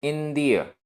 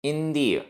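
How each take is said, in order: The two takes are said the same way.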